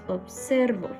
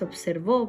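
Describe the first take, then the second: First: The stress is on the middle syllable. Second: The stress is on the last syllable. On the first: The speaker calls it right. "Es observo. Aquí se carga la voz, por lo tanto esta sería una palabra grave" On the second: The speaker calls it wrong. "no es observó porque no lleva tilde"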